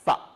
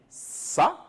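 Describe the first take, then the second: First: It starts with the tongue between the teeth. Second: It starts with a hissing s sound. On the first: The speaker calls it right. "il faut mettre la langue entre les dents" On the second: The speaker calls it wrong. "on ne va pas dire ça"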